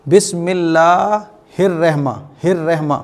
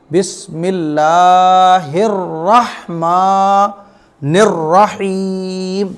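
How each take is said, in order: First: रहमा with a light 'reh' vowel; common mispronunciation. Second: Very slow chant with heavy rolled r in रहमानिर; correct tajweed recitation. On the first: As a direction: flatten रहमा to 'rehma'. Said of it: "इसमें गलती क्या करते हैं लोग?". (रहमा को 'रेहमा' जैसा, ग़लत) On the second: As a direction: stretch long vowels, hold the final रहीम. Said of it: "आपको क्या पढ़ना है?". (धीमी तिलावत, रहमानिर में रा मोटा) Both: Shown as a demonstration.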